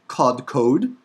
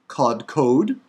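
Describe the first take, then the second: The two takes are said the same way.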